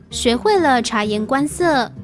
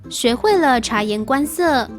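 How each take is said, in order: Both takes have the same delivery.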